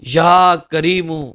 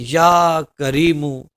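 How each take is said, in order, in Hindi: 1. यह गिड़गिड़ाते हुए, विनती के अंदाज़ में पढ़ा जाता है। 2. यह गिड़गिड़ाते हुए, विनती के अंदाज़ में पढ़ा जाता है।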